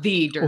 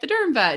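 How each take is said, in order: First: The word 'the' is strongly stressed. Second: The word 'the' is light and unstressed. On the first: The speaker is the one and only such expert. The speaker calls it wrong. "not the Dermvet" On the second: It is just a handle naming what the speaker does. The speaker calls it right. "it's more just like the Dermvet"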